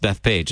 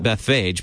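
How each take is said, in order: First: The consonant after 'Beth' sounds like p. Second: The consonant after 'Beth' sounds like f. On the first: "but I've heard it pronounced Bethpage as well" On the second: "I pronounce it Bethphage because there's a PH together"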